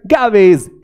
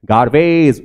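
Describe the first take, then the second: First: गार्बेज punched high, R dropped; British silent R. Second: गार्बेज with the middle R heard; American sounded R. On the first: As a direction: hit गार्बेज higher with no middle R. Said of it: "British बोलो तो आर गायब". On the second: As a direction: pronounce the R in गार्बेज, American style. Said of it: "वो क्या कर रहे हैं". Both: Shown as a demonstration.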